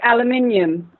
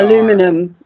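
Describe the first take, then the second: First: It is said with five syllables, non-American style. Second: It is said with four syllables, American style.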